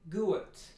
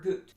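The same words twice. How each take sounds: First: The vowel glides into a diphthong. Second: The vowel is cut short. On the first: "That would be diphthongization" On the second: "That's not long enough"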